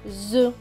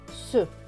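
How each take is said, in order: First: The syllable begins with a Z sound. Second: The syllable begins with an S sound. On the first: The speaker calls it right. "Ici, ça va se prononcer Z" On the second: The speaker calls it wrong. "Normalement, ici, le S et E se prononceraient se"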